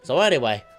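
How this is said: It is said in a put-on, Australian-sounding accent. "that sounds Australian"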